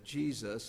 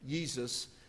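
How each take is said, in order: First: The name begins with a J sound. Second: The name begins with a Y sound. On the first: "it turned into a J. So that's why ... we say Jesus" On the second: "we don't say Jesus"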